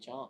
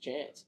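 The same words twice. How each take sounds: First: It is said in a refined, polished accent. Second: It is said in a broad, casual accent. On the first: The speaker wants to sound smarter. "If I'm having to feel like I sound a little bit smarter, it'll be chance" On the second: The speaker is among rough, casual company. "in a room full of bogans, it's chance"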